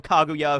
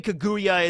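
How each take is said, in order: First: "Kaguya" as KAH-goo-yah; "Kaguya" opening on an open "ah" vowel; original pronunciation. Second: "Kaguya" as kuh-GOO-yuh; "Kaguya" as the English dub says it, kuh-GOO-yuh; dub pronunciation. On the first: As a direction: say "Kaguya" with a full "kah" first. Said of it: "it's a playoff of Kaguya". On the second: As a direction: say "Kaguya" with a reduced "kuh" first. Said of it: "they say Kaguya in the English dub". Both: Shown as a demonstration.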